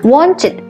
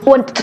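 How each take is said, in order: First: The ending is said as an extra syllable. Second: The ending is said without an extra syllable. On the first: The speaker calls it right. "Akhiran ed dibaca dengan it kalau dia berakhiran teh dan deh" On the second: The speaker calls it wrong. "mungkin kita baca want, want, no"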